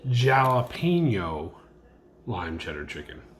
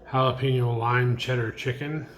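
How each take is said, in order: First: The name is pronounced in a deliberately odd way. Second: The name is pronounced in the usual way. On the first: "intentionally mispronouncing something" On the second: "This one is called"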